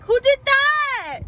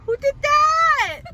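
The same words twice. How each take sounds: First: Imitating her mom's slow, high, loud "who did that"; mock surprised mom. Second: High, slow, loud imitation of mom; mock surprised mom. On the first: Son mimics mom asking who made the sign, high and slow. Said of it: "she came to the car and she was like". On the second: Son retells mom's reaction, high, slow and loud. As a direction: playfully mimic her confused question. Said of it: "She said".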